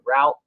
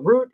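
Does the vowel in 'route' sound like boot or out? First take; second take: out; boot. First: The vowel sounds like the one in out. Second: The vowel sounds like the one in boot. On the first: "R O W T" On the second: "spell it R O O T"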